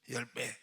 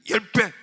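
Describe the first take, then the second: First: It is said softly, without force. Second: It is said loudly, with strong force. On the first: The speaker calls it wrong. "이렇게 하지 말고" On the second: The speaker calls it right. "목에 힘을 줘. ... 이렇게 돼야지. 이거 확신이 들어가야지"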